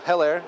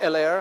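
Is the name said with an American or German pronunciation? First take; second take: American; German. First: It is said with an American pronunciation. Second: It is said with a German pronunciation. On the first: "We see the H, we say so Heller" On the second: "In German, we say Heller"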